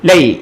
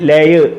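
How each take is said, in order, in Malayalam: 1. രണ്ട് ശബ്ദങ്ങളും വേഗത്തിൽ ഒന്നിച്ച് പറയുന്നു. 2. രണ്ട് ശബ്ദങ്ങളും പതുക്കെ വേറെ വേറെയായി പറയുന്നു. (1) "സ്പീഡിൽ ലൈ" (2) "എഴുതിയേക്കുന്ന ലയ് അങ്ങനല്ല"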